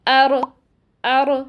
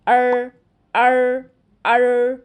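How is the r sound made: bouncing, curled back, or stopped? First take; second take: bouncing; curled back. First: The r is clipped with a bouncing, echoing release. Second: The r is made with the tongue curled back. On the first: "जल्दी से अदा कर देते हैं, जिसकी वजह से रॉ में कलकला किसी आवाज़ पैदा हो जाती है" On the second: "ज़बान की नोक को ... बहुत पीछे ले जाते हैं और इसे ऊपर तालू पर लगा देते हैं"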